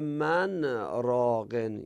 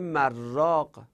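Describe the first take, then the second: First: The n and r are kept as separate sounds. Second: The n merges into the r as one sound. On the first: It asks who is a healer. The speaker calls it right. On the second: It turns into a different word with another meaning. The speaker calls it wrong.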